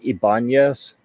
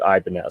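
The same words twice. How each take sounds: First: The name is said in a non-English, original-style way. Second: The name is said in an anglicized English way. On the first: This is how some people say it. "I've heard some people pronounce it" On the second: This is how most people say it. "gradually morphed and been anglicized to"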